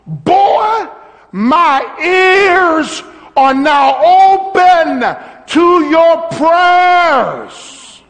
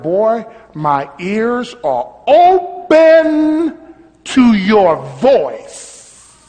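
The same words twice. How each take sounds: First: High, loud, slow call of God; God shouting to Abel that he hears him, high and slow; shouted voice of God. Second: Slow voice of God. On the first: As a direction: boom it out slowly as God calling to Abel. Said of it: "He says to Abel". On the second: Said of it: "what that means is that God said". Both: Acted.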